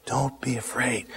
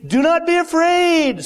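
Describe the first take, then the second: First: A low, soft don't be afraid; gently calm his fear; soft reassurance. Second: High ringing command. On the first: Jesus quietly comforting the fallen John, low and soft. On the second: Jesus reassures John. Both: Acted.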